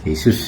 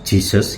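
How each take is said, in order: First: The name begins with an H sound. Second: The name begins with a J sound. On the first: "J-nya dibaca seperti H gitu" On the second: "Jesus gitu ya kalau di Inggris"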